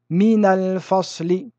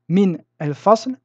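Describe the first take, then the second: First: A linking vowel joins the two words. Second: The two words are joined without a helping vowel. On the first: The speaker calls it right. "les Arabes utilisaient une harakat de liaison" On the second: The speaker calls it wrong. "vous trouverez une difficulté"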